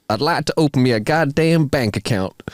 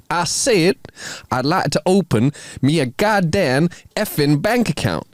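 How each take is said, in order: First: Badly faked Texas drawl. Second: Higher, slower, insistent put-on Texas drawl; emphatic Texas drawl. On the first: Large Texan asking a bank teller, in a put-on Texas drawl. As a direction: put on an amateur Texan twang. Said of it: "says in a noticeable Texas drawl". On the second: Texan repeating himself to a shocked teller, emphatic Texas drawl. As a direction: repeat it pointedly in a mock Texan twang. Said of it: "repeats himself slightly louder than necessary".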